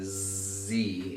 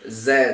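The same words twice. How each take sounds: First: The letter is said the American way. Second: The letter is said the British way.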